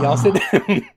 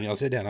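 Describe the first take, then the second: First: Higher, louder Southern mama calling; Southern mom telling the kids to sit down. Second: Said in the usual way. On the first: Acted. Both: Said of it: "now I can't get out of the voice".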